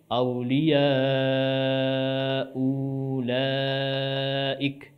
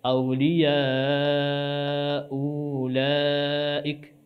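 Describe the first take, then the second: No difference in how they are said.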